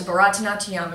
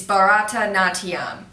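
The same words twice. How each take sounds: First: Said in the usual way. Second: Slower, spelled-out Bharatanatyam; careful repetition. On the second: Shown as a demonstration. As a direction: say Bharatanatyam slowly for whoever missed it. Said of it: "if you didn't catch that".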